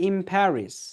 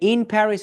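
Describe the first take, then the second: First: 'In' ends with an m-like sound. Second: 'In' ends with a clear n sound. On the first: "it will be changed with ম sound" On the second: "ইন Paris হয়ে যাবে"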